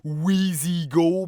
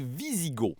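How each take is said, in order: First: The name begins with a W sound. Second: The name begins with a V sound. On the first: The speaker calls it wrong. "Faites pas comme moi les appeler les Wheezy-Go" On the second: The speaker calls it right. "ça se prononce comme un V"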